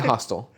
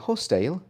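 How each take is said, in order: First: The word sounds like 'hostel', not British. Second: The word is said in a British accent. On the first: "I say hostel, like the place where you sleep" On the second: "if I'm my British [name], I'm saying hostile"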